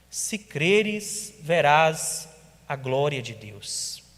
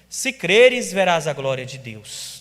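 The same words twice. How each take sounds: First: It is said as a plain, calm statement. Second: It is said as a lively exclamation.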